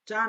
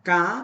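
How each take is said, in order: First: The syllable begins with a ch sound. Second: The syllable begins with a k sound. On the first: The speaker calls it wrong. "চা না" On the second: The speaker calls it right. "এটার উচ্চারণ করবেন ক মতো"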